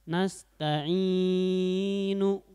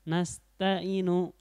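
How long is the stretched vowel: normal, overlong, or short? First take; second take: overlong; short. First: The long vowel is held beyond two beats. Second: The long vowel is held for one beat. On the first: "tidak boleh ya, karena kelebihan ya" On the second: "itu kurang ya. Itu cuman satu harokat ya"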